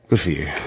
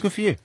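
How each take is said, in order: First: It sounds let down and disappointed. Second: It sounds warm and supportive.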